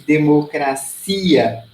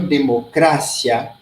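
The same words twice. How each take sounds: First: It is stressed the Portuguese way. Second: It is stressed the Spanish way. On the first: "em português a gente diz democracia" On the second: "em espanhol, democracia"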